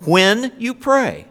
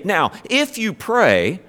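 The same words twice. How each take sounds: First: "When you pray" said slowly and much higher; stress on WHEN. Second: If stretched slowly, raised pitch; stress on IF. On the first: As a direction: draw out "When you pray", each word weighted. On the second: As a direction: lean slowly on "if" in "if you pray". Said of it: "he didn't say". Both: Shown as a demonstration.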